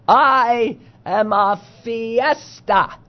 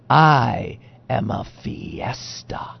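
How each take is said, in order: First: The voice stays raised and audible at the end. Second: The voice drops low and quiet at the end. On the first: The speaker calls it right. "I'll try to do it up here" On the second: The speaker calls it wrong. "Your voice was so low that I didn't hear the quote"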